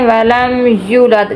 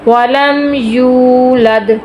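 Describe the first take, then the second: First: The vowel after the y is short. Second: The vowel after the y is drawn out. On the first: The speaker calls it wrong. "बच्चे पढ़ते हैं वलम यूलद" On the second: The speaker calls it right. "इसको हम खींच के पढ़ेंगे दो हरफों के बराबर"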